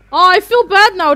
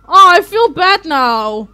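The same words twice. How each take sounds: First: Loud, higher guilty wail; real distress at hurting them; louder pained cry; guilty outcry. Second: Loud and very slow, stretched; real anguish dragged out; slow loud lament; drawn-out guilty wail. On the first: Feels guilty catching fairies. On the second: Repeats, slower and drawn out. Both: Real, not acted.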